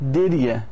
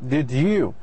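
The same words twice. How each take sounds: First: The word "you" is weak and run together. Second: The word "you" is said fully and separately. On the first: "In the short form" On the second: "This is long form"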